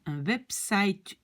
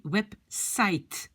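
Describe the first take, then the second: First: "website" with a V and a final vowel; Dutch reading. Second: "website" said the English way, ending on a T sound; English pronunciation. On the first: Teacher shows the Dutch reading of "website" to learners. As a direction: read "website" as Dutch, V start and E ending. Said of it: "comme si il y a un E à la fin". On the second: Teacher models "website" in English for French learners. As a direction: say "website" as in English, no final vowel. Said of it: "quand on le prononce en anglais". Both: Shown as a demonstration.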